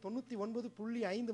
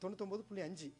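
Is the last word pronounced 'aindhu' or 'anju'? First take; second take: aindhu; anju. First: Full formal forms, ending with 'aindhu'. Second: Reduced spoken forms, ending with 'anju'. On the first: "எத்தனை பேர் நீங்க சொல்றீங்க?" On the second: "அஞ்சுன்னு தான் சொல்றீங்க"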